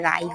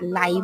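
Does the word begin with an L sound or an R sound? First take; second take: R sound; L sound. First: The word begins with an R sound. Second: The word begins with an L sound. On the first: This is the standard form. "তবে এটা রাই হবে উচ্চারণটা" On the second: This is the local dialect form. "লাই বলে আমাদের সিলেটি ভাষায়"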